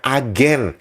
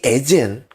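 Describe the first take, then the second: First: The word is pronounced with plain Indonesian sounds. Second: The word is pronounced like English 'agent'. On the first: The word becomes Indonesian. "itu menjadi bahasa Indonesia" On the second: The word follows English spelling habits. "Karena kalian mengeja mengikuti cara Inggris"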